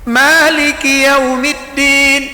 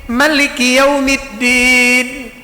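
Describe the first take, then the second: The two takes are said the same way.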